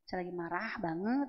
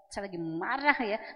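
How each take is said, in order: First: It is said calmly, without drama. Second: It is said dramatically, like a soap opera.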